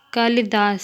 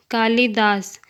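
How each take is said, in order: First: Short i in "कालिदास"; correct pronunciation. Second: Long ee in "कालिदास", like "कालीदास"; incorrect pronunciation. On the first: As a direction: say "कालिदास" with a brief middle vowel. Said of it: "शुद्ध शब्द". ("कालिदास" का शुद्ध उच्चारण, छोटी इ) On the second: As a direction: say "कालिदास" wrongly with a stretched middle vowel. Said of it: "अशुद्ध शब्द". ("कालिदास" का अशुद्ध उच्चारण, लंबी ई) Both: Shown as a demonstration.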